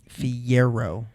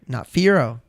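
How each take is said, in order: First: A 'y' glide follows the first syllable. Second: No 'y' glide follows the first syllable. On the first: The speaker calls it right. "which is spelled with a Y" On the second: The speaker calls it wrong.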